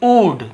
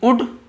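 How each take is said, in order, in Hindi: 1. स्वर लंबा है, जैसे food में। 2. स्वर छोटा है, जैसे good में। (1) "बड़ू की मात्रा और ड वाला" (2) "ऊ में छोटी की मात्रा उड"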